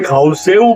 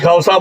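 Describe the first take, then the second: First: The word ends with a 'seu' glide. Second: The word ends with a plain 'sa' sound. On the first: Some other local people say it this way. "कोई खौसेऊ बोलता है" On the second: This is the usual local form. "हमारे यहाँ generally खौसा बोलते हैं"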